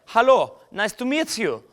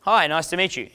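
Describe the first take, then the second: First: High-pitched mock German accent. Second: Said in the usual way. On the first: Shown as a demonstration. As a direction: greet in a comic, higher German accent. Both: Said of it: "Doing, like, a German accent".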